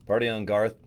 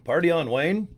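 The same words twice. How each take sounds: First: Wayne impression. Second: Garth from Wayne's World, lightly voiced, rising and higher; a hint of Garth, "Party on, Wayne" lifted up high at the end; Garth impression. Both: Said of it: "Wayne and Garth".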